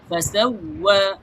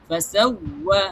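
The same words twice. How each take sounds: Both takes have the same delivery.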